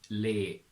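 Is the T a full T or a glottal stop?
glottal stop. The T becomes a glottal stop.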